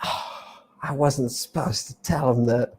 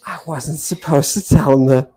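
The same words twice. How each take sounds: First: Soft, sighing confession; hushed aside. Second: Said in the usual way. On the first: Shown as a demonstration. Lecturer confiding a secret to the class, hushed. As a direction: let it slip under the breath.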